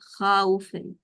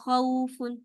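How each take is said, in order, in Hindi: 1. पहला स्वर खिंचकर लंबा 'aa' बन जाता है। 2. पहला स्वर एक छोटा, हल्का 'aw' सरकाव है। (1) "इसमें अलिफ मदिया आ गई, खाउफुन, ये नहीं करना है" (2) "सिर्फ अ, हर्फ लीन पढ़ना है, मद लीन नहीं बनानी"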